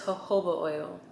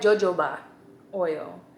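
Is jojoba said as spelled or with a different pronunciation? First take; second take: different; as spelled. First: Jojoba is pronounced differently from its spelling. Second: Jojoba is pronounced the way it is spelled. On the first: The speaker calls it right. "but it's jojoba oil" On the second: The speaker calls it wrong. "it looked like jojoba oil"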